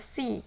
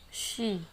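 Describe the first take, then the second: First: The word starts with a plain s sound. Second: The word starts with an sh sound. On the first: The speaker calls it wrong. "banyak yang baca si ya" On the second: The speaker calls it right. "semua penulisan sh dibaca sh"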